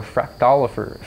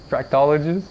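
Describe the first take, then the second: First: Said in the usual way. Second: "fractologist?" with a rising questioning tune. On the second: Shown as a demonstration.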